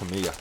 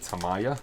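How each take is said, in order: First: The name is said a non-American way. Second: The name is said the American way. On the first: This is the speaker's preferred way. The speaker calls it right. "it's Tamiya. That's my preferred way of saying it" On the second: This is how many Americans say it. The speaker calls it wrong. "A lot of American friends that I have, they don't say Tamiya, they say Tamaya"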